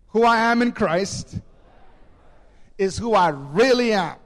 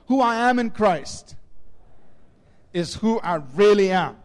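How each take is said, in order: First: It is said with strong, earnest conviction. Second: It is said plainly, without special conviction.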